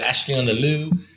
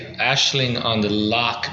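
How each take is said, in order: First: The last word ends in a plain 'loo' vowel. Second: The last word ends in a throaty 'ch'. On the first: The speaker calls it wrong. "A lot of people mess that one up. They say" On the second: The speaker calls it right. "Ashling on the loch means vision of the lake"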